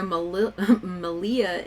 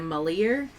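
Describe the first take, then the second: First: The name ends without an added r sound. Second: The name ends with an added r sound.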